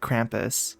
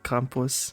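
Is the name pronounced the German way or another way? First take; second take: other; German. First: The name is not said the German way. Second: The name is said the German way. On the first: This is how the game says it. "in the game they say" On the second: This is how the speaker reads it. "the more like German way of it"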